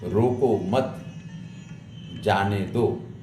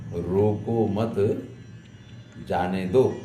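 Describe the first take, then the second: No difference in how they are said.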